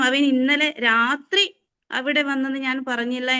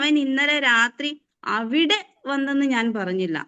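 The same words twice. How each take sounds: First: The word രാത്രി carries the stress. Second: The word അവിടെ carries the stress. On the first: He comes at other times, not at night. "രാത്രി വരാറില്ല, വേറെ എപ്പോഴൊക്കെയോ വരാറുണ്ട്" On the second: He goes to other places, not there. "അവിടെ വന്നില്ല എന്ന് ഞാൻ പറഞ്ഞുള്ളൂ, വേറെ എവിടെയൊക്കെയോ വരാറുണ്ട്"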